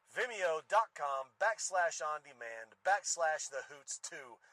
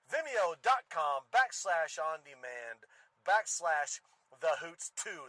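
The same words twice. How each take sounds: First: Said in the usual way. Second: Ringmaster. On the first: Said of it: "That's the number two". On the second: Pretend. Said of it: "Ladies and gentlemen".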